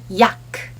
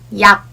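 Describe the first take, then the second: First: The final consonant is released with a puff. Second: The final consonant is cut off without release. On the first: The speaker calls it wrong. "if you pronounce yak using English sound, it would sound like yak" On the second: The speaker calls it right. "in Korean, we say yak"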